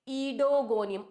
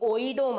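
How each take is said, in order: First: The word begins with an 'ee' sound. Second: The word begins with an 'oy' sound. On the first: The speaker calls it right. "ओ ई silent here" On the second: The speaker calls it wrong. "ओइडो मत बना देना इसको"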